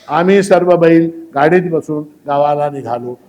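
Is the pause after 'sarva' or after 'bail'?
after bail. There is a pause after 'bail'.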